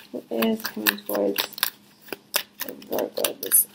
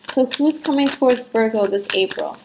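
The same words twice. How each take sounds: First: Asked again much softer, almost to herself; hushed repeat. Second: Said in the usual way. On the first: Shown as a demonstration. Tarot reader softly asks the cards again, much softer. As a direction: drop right down and murmur the question.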